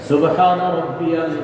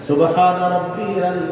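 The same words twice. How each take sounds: No difference in how they are said.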